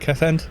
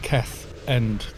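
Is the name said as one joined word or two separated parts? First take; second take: joined; separated. First: The name runs together without a break. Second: The name has a break between its parts. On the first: The speaker calls it right. "Would be like that" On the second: The speaker calls it wrong. "rather than Keth End. There'd be less uh, separation"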